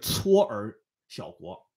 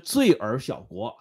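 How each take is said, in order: First: The first syllable is read as cuō. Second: The first syllable is not read as cuō. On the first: "应该念搓尔小国" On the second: "你说的这个罪尔小国"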